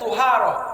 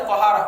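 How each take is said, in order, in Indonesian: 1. Suku kata pertama memiliki vokal u. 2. Suku kata pertama memiliki vokal a. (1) "tu dibaca dhammah, salah" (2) "dibaca ta"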